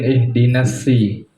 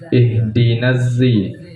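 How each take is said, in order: First: The word begins with a plain s sound. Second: The word begins with a plain z sound. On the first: "ada dengan sin" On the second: "di kiroat lain ada dengan zai"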